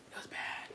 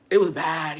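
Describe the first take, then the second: First: Hushed, voiceless aside; barely audible regretful repeat; whispered. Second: Said in the usual way. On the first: Real, not acted. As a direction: whisper it under your breath. Repeats verdict under her breath.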